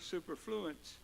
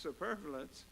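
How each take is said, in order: First: The word ends with an 'ence' sound. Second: The word ends with an 'ous' sound. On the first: The speaker calls it wrong. "I used to pronounce this word superfluence" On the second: The speaker calls it right. "it's actually pronounced superfluous"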